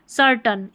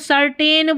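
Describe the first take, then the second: First: The last syllable has a weak 'uh' vowel. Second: The last syllable has a full 'ay' vowel. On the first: The speaker calls it right. "सर्टन इसका सही है" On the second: The speaker calls it wrong. "जैसे इसको सर्टेन बोल देते हैं"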